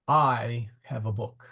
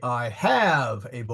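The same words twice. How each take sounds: First: The stress is on the word I. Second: The stress is on the word have.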